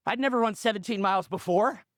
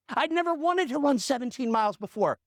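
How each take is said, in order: First: Said in the usual way. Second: "wanted" lifted higher for contrast; stress on wanted. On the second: Retold or imitated. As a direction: punch "wanted" as the comic correction. Correction of the line before.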